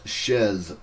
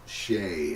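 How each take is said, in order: First: The name ends in a buzzing z sound. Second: The name ends in an open vowel sound. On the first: The speaker calls it wrong. "because Shez sounds terrible" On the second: The speaker calls it right. "I'm going to pronounce it Shay until I hear otherwise"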